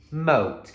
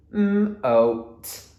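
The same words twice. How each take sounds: First: "moat" as one whole word; blended word. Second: "moat" split into m, oa, t, high and loud; sounded out. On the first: Teacher modelling reading for children, sounds blended. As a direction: blend "moat" together with no gaps, high and falling. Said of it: "Blend it together". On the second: Teacher modelling reading for children, segmented sounds. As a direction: hum the m of "moat", then oa, then a separate t. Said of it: "sounding it out". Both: Shown as a demonstration.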